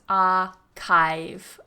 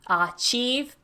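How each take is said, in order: First: The middle consonant is a 'k' sound. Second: The middle consonant is a 'ch' sound. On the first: The speaker calls it right. "but it's archive" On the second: The speaker calls it wrong. "make sure you're not doing it with a ch"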